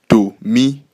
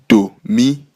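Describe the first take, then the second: The two takes are said the same way.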